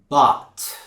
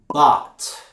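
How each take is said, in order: Both takes have the same delivery.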